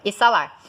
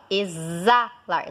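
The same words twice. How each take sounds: First: "Exalar" said as e-ssa-LAR; "Exalar" with an unvoiced S; wrong S pronunciation. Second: "exalar" as e-ZZA-lar; "exalar" with a long buzzing Z; correct Z pronunciation. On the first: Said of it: "qual que é o outro som?". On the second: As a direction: draw out the Z in "exalar". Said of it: "Você fala exalar". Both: Shown as a demonstration.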